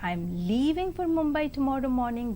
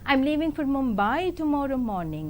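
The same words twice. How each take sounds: First: The stress falls on the word leaving. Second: The stress falls on the word Mumbai. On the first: The speaker is going, not staying. "that means I am leaving and I am not staying back" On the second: The destination is this city, not another. "means I am leaving for Mumbai and not to Delhi"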